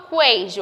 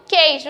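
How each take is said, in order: First: "queijo" with the u wrongly sounded, kwei-jo; U pronunciado. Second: Said in the usual way. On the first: Shown as a demonstration. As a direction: say "queijo" as "qu-eijo", voicing a w after q. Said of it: "eu não falo queijo". ("queijo" com o u pronunciado, qüei-jo) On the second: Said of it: "eu falo queijo".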